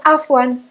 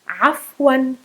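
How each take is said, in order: First: It starts with a plain vowel sound. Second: It starts with a guttural throat sound. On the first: The speaker calls it wrong. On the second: The speaker calls it right.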